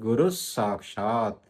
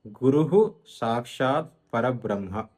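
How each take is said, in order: First: "గురుస్ సాక్షాత్" slowly, with a doubled s at the join; no hu in "గురుస్", hold the s into "సాక్షాత్"; పొల్లు సా కలిపి. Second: "గురుః" said as guru-hu, visarga sounded as a separate "hu"; విసర్గం విడదీసి. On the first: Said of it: "విసర్గాన్ని పొల్లు సాగా పలకాలి". ("గురుస్ సాక్షాత్"లో స్స ఒత్తి, నెమ్మదిగా) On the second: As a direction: split it slowly: "గురుః", with an audible hu, then "సాక్షాత్". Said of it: "గురుహులో రు తర్వాత విసర్గం ఉంది". ("గురుః"లో విసర్గాన్ని "హు"గా విడిగా పలకాలి) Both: Shown as a demonstration.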